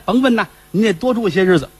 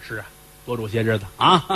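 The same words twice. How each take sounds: First: Bright higher fawning welcome; butter up the master; eager servant. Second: Lower, softer knowing echo; heavy master. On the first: Caretaker fawns over Fifth Master, higher eager. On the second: Fifth Master echoes caretaker, low soft knowing. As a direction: answer with a sly weight. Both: Acted.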